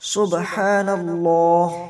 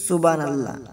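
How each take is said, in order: First: The word is pronounced precisely, every sound articulated. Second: The word is pronounced carelessly, with sounds blurred. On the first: The speaker calls it right. "বলতে হবে সুবহানাল্লাহ" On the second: The speaker calls it wrong. "আমরা অনেকেই অশুদ্ধভাবে উচ্চারণ করি"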